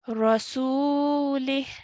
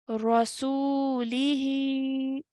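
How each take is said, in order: First: The word ends on a bare h sound. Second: The word ends with a short i vowel. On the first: The reader stops after this word. "if we want to take a pause after this and stop after this word... we will now read this word as Rasulih" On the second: The reader carries on without stopping. "without pausing, without stopping, will be read as Rasulihi"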